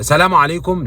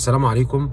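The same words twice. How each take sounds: First: The greeting is said at a louder volume. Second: The greeting is said at a quiet volume.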